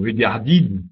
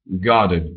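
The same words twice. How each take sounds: First: The last vowel is clearly articulated. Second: The last vowel is weak and central. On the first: The speaker calls it wrong. "C'est c'est pas regarded ou regarded" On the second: The speaker calls it right. "C'est très central, en fait. ... C'est c'est pas très articulé"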